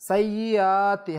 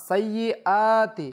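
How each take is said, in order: No difference in how they are said.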